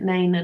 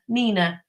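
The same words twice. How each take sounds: First: "[name]." with an ay vowel, nay-nuh; [name] pronounced nay-na. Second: "Nina." said as nee-nuh, long ee; Nina pronounced neena. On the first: Correcting the singer's name, "[name]." as nay-nuh. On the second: While guessing the singer's name, "Nina." as nee-nuh. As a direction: say "Nina." with an ee vowel. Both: Shown as a demonstration. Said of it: "how they pronounced it".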